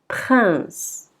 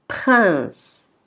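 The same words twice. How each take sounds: No difference in how they are said.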